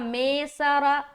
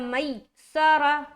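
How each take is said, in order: First: The first syllable has an 'e' vowel. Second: The first syllable is said harshly and tensely. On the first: "ये भी गलत है क्योंकि ये मजहूल हो गया" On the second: "ये भी गलत है क्योंकि सख्ती हो गई"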